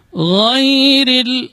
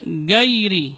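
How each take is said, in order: First: "Ghairil" chanted with a flowing gh; flowing ghain. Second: "gairi" with a hard stopped g; "gairi" with g in place of flowing gh; syiddah mistake. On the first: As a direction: let the throat gh of "Ghairil" flow, higher and held. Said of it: "dia termasuk rakhawah". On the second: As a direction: say "gairi" wrongly, g blocking the air. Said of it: "tidak juga dibaca syiddah". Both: Shown as a demonstration.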